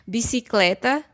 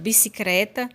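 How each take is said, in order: First: The cluster has an L sound after c. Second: The cluster has an R sound after c. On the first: This is the standard form. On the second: This is a spoken regional variant.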